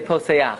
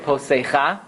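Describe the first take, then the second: First: The a vowel comes before the final ch. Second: The a vowel comes after the final ch. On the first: The speaker calls it right. "you say Poseach" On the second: The speaker calls it wrong. "You don't say Posecha"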